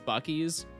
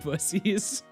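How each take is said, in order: First: The middle consonant is a K sound. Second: The middle consonant is an S sound. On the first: This is the official name. "although the name is Buc-ee's" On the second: This is a joking personal nickname. "the C's are pronounced like S's"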